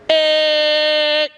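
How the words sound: The voice sounds bright and ringing, with resonance. "that's using ring"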